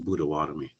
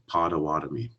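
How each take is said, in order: First: It begins with a B sound and has D. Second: It begins with a P sound and has T. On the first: This is how the people themselves say the name. "it's pronounced Budawatomi" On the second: This is how outsiders write the name. "they all spell it with a P and a T in there"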